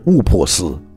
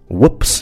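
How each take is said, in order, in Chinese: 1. 每个辅音后面都加一个元音，结尾是加上的元音。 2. p 是憋住的，结尾是裸的 s。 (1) "不是误破丝" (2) "注意whoops 发音也是气流憋住没发出来的啊"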